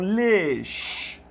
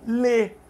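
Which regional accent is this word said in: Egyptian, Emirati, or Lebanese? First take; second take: Emirati; Egyptian. First: It has an Emirati vowel, ending in a sh sound. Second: It is said without the final sh sound. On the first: "Lá nos Emirados eles falam lesh" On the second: "O egípcio fala só lê, não tem o chiado"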